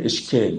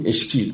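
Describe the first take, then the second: First: اشکیل with a long "e", eshkēl; Rumi's اشکیل, last vowel a drawn kasre; majhul ye. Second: اشکیل with an "ee" vowel, eshkeel; ma'ruf ye. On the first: (اشکیل با کسرهٔ کشیده) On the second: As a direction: say اشکیل the modern Iranian way, long "i". (اشکیل با یای معروف، مثل «ای») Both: Shown as a demonstration.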